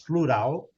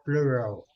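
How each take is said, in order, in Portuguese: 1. Ela é pronunciada com sons portugueses. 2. Ela é pronunciada com sons ingleses. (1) "Nós falamos plural" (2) "eles falam plural"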